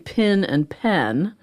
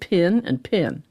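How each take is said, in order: First: The two words have clearly different vowels. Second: The two words have the same vowel. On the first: "I'm from Pittsburgh, so I say pin and pen" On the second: "they both sounded exactly the same"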